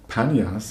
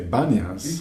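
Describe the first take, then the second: First: The name begins with a P sound. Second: The name begins with a B sound. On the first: "They wouldn't say Panyas" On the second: "They would say Banyas. because they can't pronounce the P"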